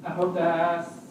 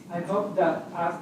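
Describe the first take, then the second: No difference in how they are said.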